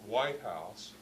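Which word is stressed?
White. The stress falls on the word white. It means one particular, specific building.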